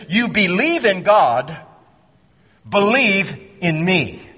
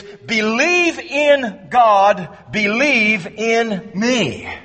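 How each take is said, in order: First: You believe in God said as a plain statement, believe in me then urged; statement then command; indicative reading. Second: Believe in God said slowly as a double command, each believe stressed; slow, emphatic double command; imperative reading. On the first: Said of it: "in those versions it says this". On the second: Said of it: "It is". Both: Shown as a demonstration.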